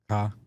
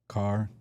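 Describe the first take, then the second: First: It is said in a Chicago accent. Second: It is said in a standard accent.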